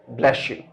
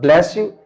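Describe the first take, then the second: First: The s in 'bless' links into a sh sound. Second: The s in 'bless' stays a plain s sound. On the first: "s sound, it is changed to sh sound" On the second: "Instead of bless you"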